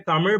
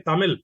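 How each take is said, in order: First: It is said with the special Tamil consonant. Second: It is said without the special Tamil consonant. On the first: The speaker calls it right. "pronounce the, the letter R, which is unique to Tamil" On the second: The speaker calls it wrong. "not being able to say Tamil but say Tamil"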